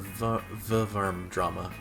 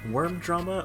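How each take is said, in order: First: The first word begins with a V sound. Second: The first word begins with a W sound. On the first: "I pronounced it V-Verm Drama the first time" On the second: "I pronounced it Worm Drama the second time"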